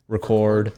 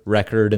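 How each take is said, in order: First: ReCORD, stressed on the second syllable. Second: RECord, stressed on the first syllable. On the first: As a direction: say "record" as the verb, re-CORD. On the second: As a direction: say "record" as the noun, REC-ord. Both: Shown as a demonstration. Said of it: "there's different way to say words".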